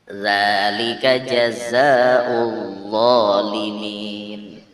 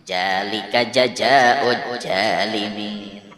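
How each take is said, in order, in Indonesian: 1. Huruf kuncinya diucapkan dengan bunyi seperti z. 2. Huruf kuncinya diucapkan dengan bunyi seperti j.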